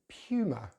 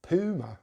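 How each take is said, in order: First: It is said with a British pronunciation. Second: It is said with an American pronunciation. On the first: "Puma in British English" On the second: "in America they say Puma ... slightly different P and a U sound there"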